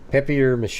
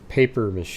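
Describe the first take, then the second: First: The first word sounds like French 'papier'. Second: The first word sounds like English 'paper'. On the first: This is probably the original way to say it. "probably was like papier mache" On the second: This is how the speaker always said it. "I guess I always thought it was paper mache"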